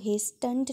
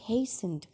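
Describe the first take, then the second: First: The t sound is pronounced in the middle. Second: The t sound is silent in the middle. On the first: The speaker calls it wrong. "आपने इसको hastened नहीं बोलना बेटे" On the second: The speaker calls it right. "इसमें टी silent है"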